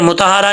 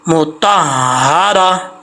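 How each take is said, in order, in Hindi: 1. h की आवाज़ छोटी और एकल है। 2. h की आवाज़ खिंची हुई और दोहरी है। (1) "मुतहारा नहीं पढ़ना" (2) "हा के ऊपर शब्द है"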